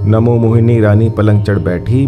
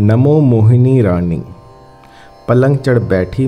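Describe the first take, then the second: First: The line is spoken at a fast pace. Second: The line is spoken at a slow pace.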